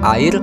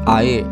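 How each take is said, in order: First: The final r is pronounced. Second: The final r is not pronounced.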